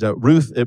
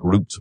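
First: The name ends with a th sound. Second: The name ends with a t sound. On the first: "in Hebrew, you probably wouldn't have the TH sound" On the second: "So it's really more like Root"

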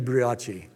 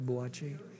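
First: The word is said roughly as bree-osh. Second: The word is said roughly as boo-ah-chee. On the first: The speaker calls it right. "It should be brioche" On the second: The speaker calls it wrong. "Did I say buachi right"

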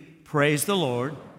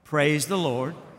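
The two takes are said the same way.

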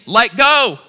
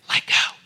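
First: It is screamed at full volume. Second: It is said softly and calmly.

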